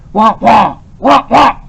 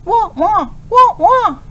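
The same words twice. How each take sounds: First: Loud mock barking of a big angry dog. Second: Put-on high yapping like a young puppy; puppy yips. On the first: Professor imitating a big dog for his puppy, loud mock barks. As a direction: bark like a large angry dog, lightly done. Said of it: "in the dark, growling voice of a large, angry dog". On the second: Professor showing his puppy how to speak, high yips. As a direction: yip it out like a little pup. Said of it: "yipping like a young puppy". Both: A narrator's reading.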